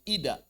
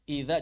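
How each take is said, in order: First: The middle consonant is a plain 'd' sound. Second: The middle consonant is a soft 'dh' sound.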